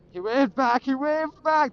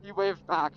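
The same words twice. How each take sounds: First: Loud, high burst of relief; excited. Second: Said in the usual way. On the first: Real, not acted. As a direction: cheer it out, delighted. Cop waved back, relieved.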